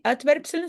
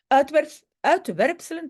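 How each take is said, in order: First: Said in the usual way. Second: Words mushed by a dental retainer; wearing a retainer. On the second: Real, not acted. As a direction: talk around a retainer in the mouth. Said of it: "avec mon appareil, difficile". (avec un appareil dentaire)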